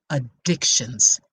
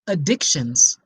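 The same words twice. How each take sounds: First: Addictions said slower and lower, heavy; slow low repeat. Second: Said in the usual way. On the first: Shown as a demonstration. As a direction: land the word Addictions like a warning. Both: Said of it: "Did you hear what I just said?".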